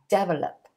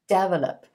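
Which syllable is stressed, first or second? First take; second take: first; first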